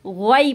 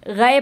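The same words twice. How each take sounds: First: ग़ैन को हलक़ में रोककर; correct ghain. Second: गै with the throat sound slipping; the mistaken गै; wrong ghai. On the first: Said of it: "गै पढ़ना है इसको". (हलक़ से सही ग़ैन) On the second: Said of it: "तो गै नहीं पढ़ना". (ग़लत गै) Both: Shown as a demonstration.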